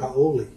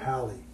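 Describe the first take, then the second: First: The vowels are said separately, like 'ha-o-le'. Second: The word is said as two syllables, 'howly'. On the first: This is the original ancient Hawaiian way of saying it. "in ancient Hawaii, the word was actually H A O L E" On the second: This is the modern English way of saying it. "now we pronounce it in English today as like H O W L E E"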